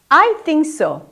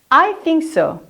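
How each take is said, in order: The two takes are said the same way.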